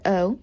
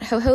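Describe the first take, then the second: First: The word starts with a plain vowel. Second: The word starts with a sounded h. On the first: The speaker calls it right. "but o" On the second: The speaker calls it wrong. "not ho-ho like Santa"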